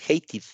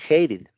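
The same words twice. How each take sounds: First: The middle consonant is a full t sound. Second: The middle consonant sounds between r and d. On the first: The speaker calls it wrong. "no pronunciamos como tal" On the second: The speaker calls it right. "más bien se pronuncia"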